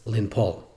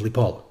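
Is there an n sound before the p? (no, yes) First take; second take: yes; no. First: An n sound comes before the p. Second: No n sound comes before the p. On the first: "To fall is Linpol" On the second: "the Nun drops and it comes Lipol"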